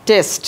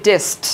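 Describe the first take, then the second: Both takes have the same delivery.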